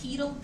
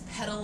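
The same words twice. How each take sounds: First: It is not said like the bike part. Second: It is said like the bike part.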